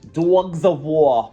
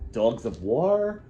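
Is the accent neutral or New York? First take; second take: New York; neutral. First: It is said in a New York accent. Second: It is said in a neutral accent.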